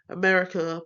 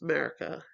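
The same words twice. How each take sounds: First: All syllables of the word are pronounced. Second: The word is shortened, with syllables reduced.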